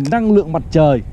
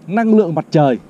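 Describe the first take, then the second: No difference in how they are said.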